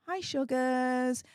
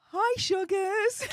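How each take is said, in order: First: Slow, drawn-out mock-sweet hello; cheeky greeting. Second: High-pitched, drawn-out mock-sweet hello; cheeky high greeting. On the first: Streamer greets those who tried to stop her, cheeky and drawn-out. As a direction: stretch out a teasing little greeting. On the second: Streamer taunts those who tried to stop her, cheekily high-pitched. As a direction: sing out a teasing greeting way up high.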